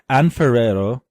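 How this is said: The name is said with an American accent. The speaker calls it wrong.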